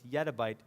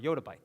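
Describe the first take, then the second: First: The first syllable sounds like 'yet'. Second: The first syllable sounds like 'yot'. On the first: Some other people say it this way. "Some people actually pronounce this yettabyte" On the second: This is the form the speaker prefers. "but I prefer yottabyte"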